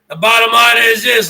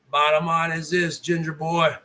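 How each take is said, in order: First: Same words, now louder, punched out; loud declaration at the rival streamer. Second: Half-muttered, lower and softer; hushed low warning to the streamer; quiet and low. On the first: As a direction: blurt it out louder. Rant, repeated phrase now loud. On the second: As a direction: drop the voice low and soft before the blow. Rant, low repeated build-up. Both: Real, not acted.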